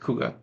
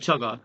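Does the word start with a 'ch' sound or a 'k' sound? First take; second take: k; ch. First: The word begins with a 'k' sound. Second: The word begins with a 'ch' sound. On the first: The speaker calls it right. "the correct pronunciation is Kuga" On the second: The speaker calls it wrong. "Some people call it Chugga. I'm like, there's no H"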